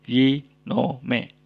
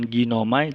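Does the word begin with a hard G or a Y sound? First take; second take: Y sound; hard G. First: The word starts with a Y sound. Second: The word starts with a hard G sound. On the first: The speaker calls it right. "tapi yinome" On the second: The speaker calls it wrong. "bukan ginomai"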